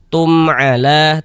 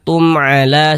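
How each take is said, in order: First: The first syllable is read short and crisp. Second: The first syllable is read short and crisp.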